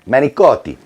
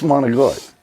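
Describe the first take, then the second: First: It is said in the standard full pronunciation. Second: It is said in an Italian-American slang pronunciation. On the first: The speaker calls it right. "That's how you're supposed to say it correctly" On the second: The speaker calls it wrong. "the American Italians... it just keeps just slang"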